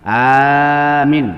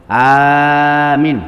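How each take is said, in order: No difference in how they are said.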